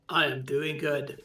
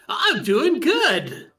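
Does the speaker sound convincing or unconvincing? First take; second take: unconvincing; convincing. First: It sounds flat and unconvincing. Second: It sounds upbeat and convincing. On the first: The speaker calls it wrong. "That doesn't sound convincing" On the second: The speaker calls it right. "There we go. Much better"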